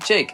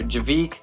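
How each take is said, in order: First: The name is said with one syllable. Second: The name is said with two syllables. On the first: The speaker calls it right. "you pronounce it Jake" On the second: The speaker calls it wrong. "or Javik"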